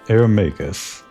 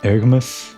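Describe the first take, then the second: First: The name is said as Ermagus. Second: The name is said as Ergmus. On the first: The speaker calls it wrong. "I always pronounced it in my head as Ermagus" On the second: The speaker calls it right. "But I guess it's Ergmus"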